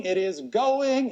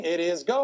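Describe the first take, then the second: First: Slow drawn-out going call. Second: Said in the usual way. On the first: Real, not acted. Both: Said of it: "as soon as I stop stalling".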